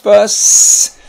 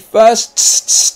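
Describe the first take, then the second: First: The final s sound is pronounced once. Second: The final s sound is pronounced twice. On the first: The speaker calls it right. "Just fuss" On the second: The speaker calls it wrong. "You don't say fuss"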